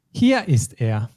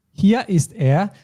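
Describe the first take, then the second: First: Said in the usual way. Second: Hier said high and drawn out; stress on hier. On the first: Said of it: "then you will say". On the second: Shown as a demonstration. Teacher demos stress on hier for student. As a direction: lean on hier, stretch it slowly. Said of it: "emphasize the place that you found it".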